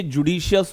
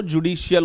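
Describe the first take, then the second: First: "जुडिशियस", closing on "-shi-us"; "जुडिशियस" with final s. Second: "जुडिशियल", closing on "-shi-ul"; "जुडिशियल" with final l. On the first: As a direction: say "जुडिशियस" ending in an s sound, not l. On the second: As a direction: say "जुडिशियल" ending in an l sound, not s. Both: Shown as a demonstration. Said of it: "जुडिशियल मत पढ़िएगा".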